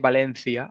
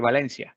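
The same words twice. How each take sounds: First: The c sounds distinct from an s. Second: The c sounds the same as an s. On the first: This is how it is said in Spain. "I don't say Valencia" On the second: This is how most other Spanish speakers say it. "I say Valencia"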